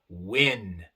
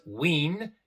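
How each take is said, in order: First: The vowel is a short lax i sound. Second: The vowel is a tense ee sound. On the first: The speaker calls it right. "sino win" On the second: The speaker calls it wrong. "no es win"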